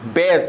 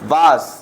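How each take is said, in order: First: The vowel sounds like 'ay' as in say. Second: The vowel sounds like 'ah' as in father. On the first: The speaker calls it right. "बेस पढ़ेंगे" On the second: The speaker calls it wrong. "बास हमारा गलत हो जाएगा"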